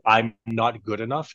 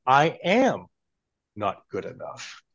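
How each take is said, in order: First: Said in the usual way. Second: "I am not good enough" with "am" spelt out and a pause before "not"; full words, not contracted. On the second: Shown as a demonstration. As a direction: say "I am" separately, then drop and slow down on "not good enough". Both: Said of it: "try saying".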